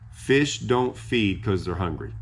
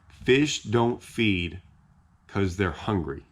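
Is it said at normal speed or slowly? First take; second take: normal speed; slowly. First: It is said at normal speed. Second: It is said slowly.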